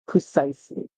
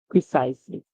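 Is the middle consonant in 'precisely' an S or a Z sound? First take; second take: S; Z. First: The middle consonant is a hissing S sound. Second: The middle consonant is a buzzing Z sound. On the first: The speaker calls it right. "the S here is making a sound like this" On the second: The speaker calls it wrong. "not a Z sound. So that was my mistake"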